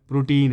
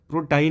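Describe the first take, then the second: First: The second syllable sounds like 'teen'. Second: The second syllable sounds like 'tine'. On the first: The speaker calls it right. "प्रोटीन है" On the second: The speaker calls it wrong. "प्रोटाइन नहीं है वो"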